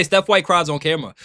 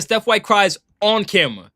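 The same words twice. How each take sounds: First: Said in the usual way. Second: "on" leaned on, set apart before camera; stress on "on". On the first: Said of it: "She didn't say". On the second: Shown as a demonstration. Streamer showing chat how Kelsey emphasized it, stress on "on". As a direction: hit the word "on" in "on camera". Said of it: "Notice how she put the emphasis".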